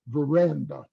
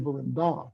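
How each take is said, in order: First: The main stress is on the middle syllable. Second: The main stress is not on the middle syllable. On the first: The speaker calls it right. "You say veranda" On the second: The speaker calls it wrong. "or you don't say veranda"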